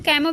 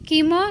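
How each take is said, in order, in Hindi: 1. पहला स्वर 'ai' ध्वनि है। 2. पहला स्वर लंबी 'ee' ध्वनि है। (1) "कैमो भी पढ़ते हैं इसे कई लोग" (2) "कीमो या फिर कैमो भी पढ़ते हैं इसे कई लोग"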